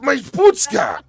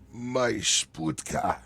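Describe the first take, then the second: First: It is said loudly. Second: It is said quietly and low.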